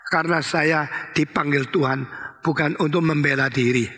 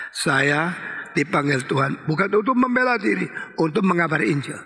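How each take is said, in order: First: Said in the usual way. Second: "dipanggil Tuhan bukan untuk membela diri" raised as a chant-along line; leading group recitation. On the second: Shown as a demonstration. Preacher counts the congregation in to repeat, leading group recitation. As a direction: recite it for everyone to say together. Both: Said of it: "Eh, semua, satu, dua, tiga".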